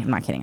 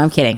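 First: Low, soft mock confession; muttered aside. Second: Said in the usual way. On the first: Mother undercutting her own joke, muttered aside. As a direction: drop it under your breath.

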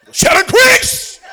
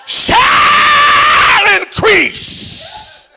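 First: "Shall increase" said slowly and higher, falling at the end; slowed down. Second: Shall increase stretched very slowly, much higher and louder; drawn out slowly. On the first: Preacher repeating the phrase slowly for the crowd. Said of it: "and slow down". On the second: Preacher demonstrating to the congregation, very slowly drawn out. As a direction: pull out each syllable of "shall increase" as a high, slow call. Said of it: "start at one word... and slow down". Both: Shown as a demonstration.

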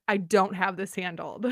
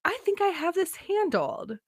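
First: Lower, matter-of-fact inner voice; understated honest acknowledgement; plain admission. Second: High, falsely confident inner voice; acted-out overconfidence, pitched up; mock self-assurance. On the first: Retold or imitated. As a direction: admit it to yourself, low and level. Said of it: "acknowledge that it's, that it's not". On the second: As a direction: chirp it as if all is under control. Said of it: "I go".

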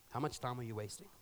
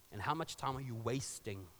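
First: Preacher echoing the challenge softly; quieter echo. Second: Plain. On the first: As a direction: let the question sink in. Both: Shown as a demonstration. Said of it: "repeats the question".

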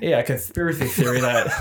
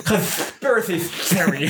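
First: Said in the usual way. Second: Slow lisping cartoon duck; Daffy Duck voice. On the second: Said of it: "Good Daffy Duck impression".

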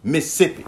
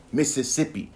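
First: "Mississippi" clipped to "Missippi", middle syllable swallowed; Southern Mississippi. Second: "Mississippi" with all four syllables, Miss-iss-ipp-i; standard Mississippi. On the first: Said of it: "If you're from the South, you say that's". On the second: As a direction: spell out every syllable of Mississippi. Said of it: "Most people pronounce it as Mississippi". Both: Shown as a demonstration.

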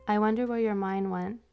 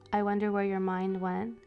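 The two takes are said the same way.

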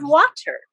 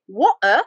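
First: Said in the usual way. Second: "water" said the British way, T dropped; British accent. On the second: Shown as a demonstration. Joker mimicking the British in her riddle, British accent.

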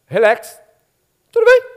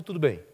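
First: Very high squeaky falsetto; exaggerated high-pitched all-is-well; woman's feigned okay. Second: Said in the usual way. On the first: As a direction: chirp the answer in a tiny high voice. Woman's answer, acted.

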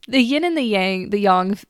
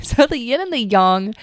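First: Yang with the flat A of "bang"; the yin and the YANG, as in "sang"; mispronounced slip. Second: Yang as "yahng", with an open "ah"; careful YAHNG for yang; corrected pronunciation. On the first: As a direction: say yang the American way, rhyming with "hang". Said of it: "There I go. Sorry, Doctor Chang". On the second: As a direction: redo the yin and the yang, yang rhyming with "song". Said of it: "Sorry, Doctor Chang". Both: Real, not acted.

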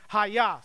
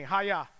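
First: Hayah said as "ha-YAH", two syllables; Hayah: stress on the second syllable, open a; Hebrew name. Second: Hayah, slow and low, "ha-yah"; Hebrew name with the crowd. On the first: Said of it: "if you were to pronounce it in the original way". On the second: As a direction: Hayah as a call-and-response word. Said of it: "Say that with me". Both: Shown as a demonstration.

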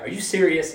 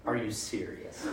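First: Higher, louder exasperated parent yell; angry parent. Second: Said in the usual way. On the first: Retold or imitated. Angry parent yelling at a misbehaving kid. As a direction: bark it like a fed-up mom. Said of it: "I would be the angry parent". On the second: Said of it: "preacher's own reaction".

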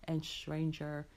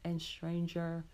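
The two takes are said the same way.

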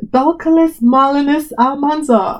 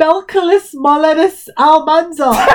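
First: "Belcalis Malinus Almanzar" said slowly, each syllable laid out; slow incantation. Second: "Belcalis Molenus Almanzar" read slowly like an incantation; slow spell-like reading. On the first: Asked to repeat, she reads the name slowly like a spell. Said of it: "Say again". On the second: Reading the rapper's real name aloud, slowly like an incantation. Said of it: "what spell did you just cast on me". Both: Real, not acted.

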